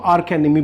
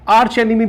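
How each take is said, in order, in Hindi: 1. पहले शब्द का अंत 'k' ध्वनि से होता है। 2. पहले शब्द का अंत 'ch' ध्वनि से होता है। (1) "इसको आर्क एनिमी बोला जाता है" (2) "आर्च एनिमी भी बोल सकते हो"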